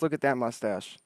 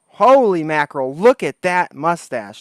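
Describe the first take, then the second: First: Said in the usual way. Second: Slow, louder, drawn-out amazement at "look"; amazed. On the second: Real, not acted. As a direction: stretch out "look" in disbelief, louder. Amazed by guest's mustache.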